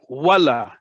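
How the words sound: The word goes upward, sounding like an exclamation. It expresses surprise or emphasis. "upwards means exclamation point"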